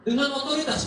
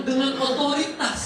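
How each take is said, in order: First: Dengan hit higher and louder, otoritas falling after; stress on dengan. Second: Otoritas hit louder and higher, falling at the end; stress on otoritas. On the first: Teacher contrasting dengan otoritas with influence. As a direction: lean on Dengan first. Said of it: "bukan dengan pengaruh". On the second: Teacher stressing otoritas to the parents. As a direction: land on otoritas, not on dengan. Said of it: "Dengan otoritas, bukan dengan pengaruh". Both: Shown as a demonstration.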